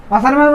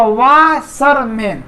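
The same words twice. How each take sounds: First: Said in the usual way. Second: washerman very slowly, pausing between वा, शर, मैन; three long separated beats on washerman; split into syllables. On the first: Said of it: "washerman तीन syllable हुआ ना". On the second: Shown as a demonstration. Teacher showing it divides in three, split into syllables. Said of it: "तीन syllable हुआ".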